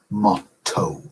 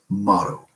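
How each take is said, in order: First: The t is fully released, starting a new syllable. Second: The t is a quick flap between vowels. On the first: The word is split into two metrical feet. "that T as if it were opening a new word" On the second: Both syllables belong to one metrical foot. "as you say in American in American English"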